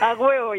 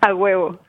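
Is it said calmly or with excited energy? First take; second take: excited; calmly. First: It is said loudly, with excited energy. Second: It is said calmly, in a plain voice.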